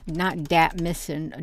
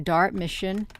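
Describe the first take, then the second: First: "dat" said with no r, like "that" without th; dropped r. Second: "dart" said with a full r; plain. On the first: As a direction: say "dat" with no r sound at all. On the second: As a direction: correct "dart", r clearly sounded. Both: Shown as a demonstration. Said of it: "not dat mission".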